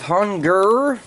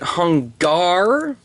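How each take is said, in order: First: The last syllable is pronounced 'gur'. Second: The last syllable is pronounced 'gar'. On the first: "I did say Gur" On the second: "I have heard people pronounce it Hungar"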